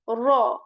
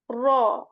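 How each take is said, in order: The two takes are said the same way.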